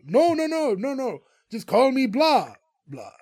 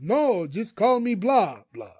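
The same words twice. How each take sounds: First: Losing patience, insist hard; rising exasperation at repeating himself; exasperated correction. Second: Slow, deliberate insistence on the name; measured, insistent correction; patient correction. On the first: Count Blah correcting Greg again. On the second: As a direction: spell it out slowly, like to a child. Count Blah correcting Greg. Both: Retold or imitated.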